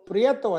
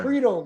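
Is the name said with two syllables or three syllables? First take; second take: three syllables; two syllables. First: The name is said with three syllables. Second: The name is said with two syllables. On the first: This is the Spanish way the family did not use. "we didn't pronounce it Prieto at the time" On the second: This is how the family said it growing up. "It was Prito growing up"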